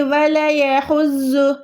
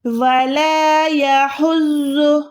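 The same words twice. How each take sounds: First: वला यहुज़्ज़ु with "la" clipped short, no stretch; unstretched वला यहुज़्ज़ु; mistake, short laa. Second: वला यहुज़्ज़ु with a long held "laaa"; slow chanted वला यहुज़्ज़ु; stretched alif. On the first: Retold or imitated. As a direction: imitate the error, running "wala-ya" together in वला यहुज़्ज़ु. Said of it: "ऐसे mistake हो जाएगी". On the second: Shown as a demonstration. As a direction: recite वला यहुज़्ज़ु slowly, stretching laa and the buzzing doubled final consonant. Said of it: "इसको खींचना होता है".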